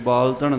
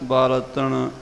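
First: The word is said in a tight, clipped way. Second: The word is said in a relaxed, loose way. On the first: The speaker calls it wrong. "ਕੱਸ ਕੇ ਬਾਲਤਣ ਨਹੀਂ ਕਰਨਾ" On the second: The speaker calls it right. "ਇਸ ਤਰ੍ਹਾਂ ਉਚਾਰਨ ਕਰਨਾ ਹੈ"

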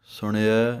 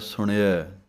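No difference in how they are said.

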